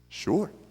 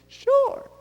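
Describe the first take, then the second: First: It is said in his normal voice. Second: It is said in a high-pitched childlike voice.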